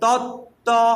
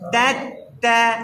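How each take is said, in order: First: It is said thick, with rounded lips. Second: It is said thin, with spread lips. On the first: The speaker calls it wrong. "যদি আপনি ঠোঁট গুল করেন মোটা হয়ে যাবে" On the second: The speaker calls it right. "ঠোঁট দুই দিকে লম্বা হবে"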